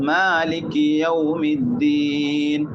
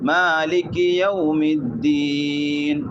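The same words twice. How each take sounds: First: The first vowel is held for a short length. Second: The same.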